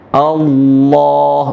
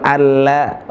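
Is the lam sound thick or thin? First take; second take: thick; thin. First: The lam is pronounced thick and heavy. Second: The lam is pronounced thin and light. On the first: The speaker calls it right. "Lam itu tebal" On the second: The speaker calls it wrong.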